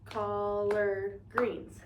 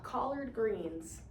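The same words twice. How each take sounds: First: Drawn-out teaching model; slow syllable count. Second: Very slow, syllables split apart; drawn-out teaching syllables; slow syllable clapping. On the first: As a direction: stretch every syllable for the class. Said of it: "So this is two words". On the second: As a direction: clap out each syllable slowly. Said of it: "Let's clap". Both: Shown as a demonstration.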